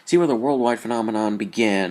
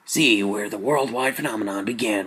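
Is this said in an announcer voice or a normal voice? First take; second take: normal; announcer. First: It is read in a plain, ordinary speaking voice. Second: It is read in a dramatic, put-on announcer voice.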